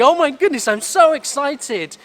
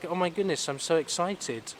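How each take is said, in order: First: It is said with obvious excitement. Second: It is said without any excitement.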